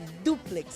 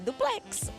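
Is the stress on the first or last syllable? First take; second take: first; last. First: The stress is on the first syllable. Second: The stress is on the last syllable. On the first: The speaker calls it right. "O forte é o du" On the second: The speaker calls it wrong. "Não é duplex"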